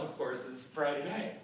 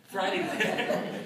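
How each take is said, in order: First: Said in the usual way. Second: Slow, laughing title announcement. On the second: Real, not acted. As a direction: laugh through the words.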